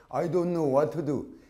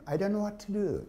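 First: "I don't know what to do" in full Korean syllables; wrong Korean-style pronunciation. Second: "I don't know what to do" with short linked alveolar sounds; correct English pronunciation. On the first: Teacher mocks the silly mistake, Korean-accented "I don't know what to do". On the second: Teacher models right English for students, short linked "I don't know what to do". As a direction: link "what to" lightly, English-style. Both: Shown as a demonstration. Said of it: "이렇게 발음하면 안 된다는".

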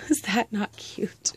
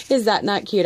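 First: Whispered aside. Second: Said in the usual way. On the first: Real, not acted.

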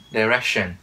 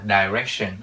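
First: "Direction" said clearly, each sound spoken out, ending falling; correct pronunciation. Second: "direction" slurred with a "dai" sound, not clear; the common slurred mistake on "direction"; wrong pronunciation. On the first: (đọc rõ "Direction") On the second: (đọc sai "direction") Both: Shown as a demonstration. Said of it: "chứ không phải là direction".

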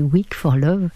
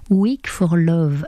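First: Slow, deliberate English-accented song title; le titre anglais, prononcé avec application. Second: Slow, careful English-accented song title; le titre dit lentement, avec l'accent anglais. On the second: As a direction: give the song title a French speaker's English accent, slowly. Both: Real, not acted. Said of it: "attention à mon accent anglais".

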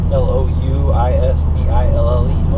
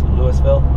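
First: Louisville said the Kentucky way, like Loo-i-vil; Louisville as locals in Kentucky say it; Louisville, Kentucky style. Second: Louisville said the Colorado way, Lewis-ville; Louisville as said in Colorado, the s sounded; Louisville, Colorado style. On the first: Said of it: "or Louisville, they say in Kentucky". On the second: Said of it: "but in Colorado it's Louisville". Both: Shown as a demonstration.

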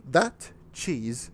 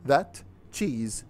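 Both takes have the same delivery.

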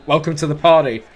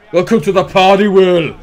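First: Said in the usual way. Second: Louder, higher welcome to the party; excited. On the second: Shown as a demonstration. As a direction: belt it like a commentator.

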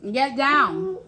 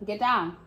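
First: Louder, rising call of get down. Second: Said in the usual way. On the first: Real, not acted. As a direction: call out get down, pushing harder. Scolding pet off table.

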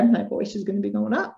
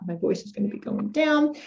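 First: "up" lifted at the end; rising intonation on "up"; voice going up. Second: "down" dropping in pitch; falling intonation on "down"; voice going down. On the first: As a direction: let the pitch climb on "up". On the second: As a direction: start higher and let "down" fall. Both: Shown as a demonstration.

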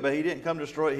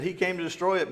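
First: Said in the usual way. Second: "He came to destroy it" as the Pharisees' accusing claim, pitched a little up; mock accusation before the correction; wrong claim. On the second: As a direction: voice the false charge.

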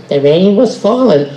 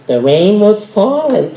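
First: Slow, weighty storyteller read; dramatic narration. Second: Flat, silly throwaway read; stupid way. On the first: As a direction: announce it like a story cue. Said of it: "but I'm gonna say". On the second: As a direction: say it the dumb way. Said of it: "I won't say it stupid like that". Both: Shown as a demonstration.

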